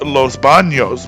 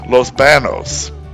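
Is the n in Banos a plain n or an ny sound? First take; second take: ny sound; plain n. First: The n is said with an ny sound. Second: The n is said as a plain n. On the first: This is the original Spanish name. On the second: This is the name without the tilde.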